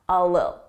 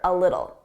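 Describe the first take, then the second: First: The T sounds are dropped completely. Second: The T sounds are said as soft D's. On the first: "completely drop those T's" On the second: "I pronounced them as soft D's"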